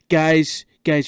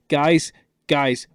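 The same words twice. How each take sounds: First: It is said in a put-on imitation voice. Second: It is said in a natural speaking voice.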